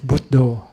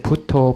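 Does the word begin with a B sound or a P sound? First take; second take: B sound; P sound. First: The word begins with a voiced B sound. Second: The word begins with a voiceless P sound. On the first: This is the Pali pronunciation. "if you pronounce in Bali, it's Buddho" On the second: This is the Thai pronunciation. "The B turns into P. So we say Putto, Putto in Thai"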